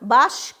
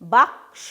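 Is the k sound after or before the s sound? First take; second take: after; before. First: The k sound comes after the s sound. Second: The k sound comes before the s sound. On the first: The speaker calls it wrong. "আমরা কিন্তু কখনো বলবো না" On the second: The speaker calls it right. "সেই জন্য কয়ের উচ্চারণটা আগে হবে, শেষে কিন্তু দন্ত স এর উচ্চারণটা হবে।"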